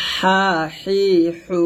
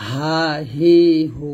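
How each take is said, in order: First: Slow squeezed হা হি হু; thin pressed air from mid-throat on হা হি হু; narrow-breath ha. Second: Slow easy হা হি হু; unpressed air from throat start on হা হি হু; natural-breath ha. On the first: Teacher drilling the first letter, narrow-breath ha. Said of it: "চিকন করে বলবো". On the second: Teacher drilling the second letter, natural-breath ha. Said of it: "স্বাভাবিকভাবে". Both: Shown as a demonstration.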